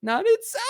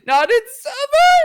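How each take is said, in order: First: High squeaky voice. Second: Squeaky and loud, pitched way up; mock a voice cracking upward; cracking high voice. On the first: Retold or imitated. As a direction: voice jumps way up, squeaky. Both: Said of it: "your voice is scaled upward".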